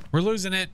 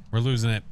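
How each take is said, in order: First: We're losing it, pitched way up in mock panic; high panicky repeat. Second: Said in the usual way. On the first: Real, not acted. To teammates hunting the ghost, a high mock-panicked cry. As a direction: squeak "losing" up high like you're cracking.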